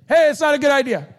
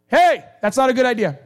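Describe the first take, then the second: First: Higher, louder, offhand call; breezy mock warning; casual retelling. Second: Paul's yell. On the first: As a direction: toss it out like a laid-back buddy. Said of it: "That's the Jake International version". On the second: Retold or imitated. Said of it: "Paul yells from inside the prison".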